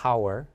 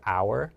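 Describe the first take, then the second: First: The h sound at the start is pronounced. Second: The h sound at the start is silent. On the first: The speaker calls it wrong. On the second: The speaker calls it right.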